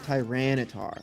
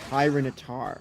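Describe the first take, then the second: First: The first part does not sound like 'tyrant'. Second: The first part sounds like the word 'tyrant'. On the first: The speaker calls it wrong. "Not Tyranitar" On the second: The speaker calls it right. "It's Tyranitar. Like tyrant"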